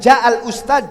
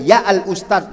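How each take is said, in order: First: The first word starts with a j sound. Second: The first word starts with a y sound.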